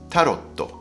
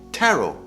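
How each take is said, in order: First: It is said in three syllables, ending in otto. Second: It is said in two syllables, ending in o. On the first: The speaker calls it wrong. "and not tarotto, like you say in Japanese" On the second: The speaker calls it right. "the pronunciation of tarot cards is like a Japanese name taro"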